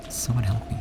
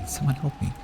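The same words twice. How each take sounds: First: Frightened plea. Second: Higher, panicking call for help; the same plea, but with fear rising into panic; panicked plea. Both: Acted.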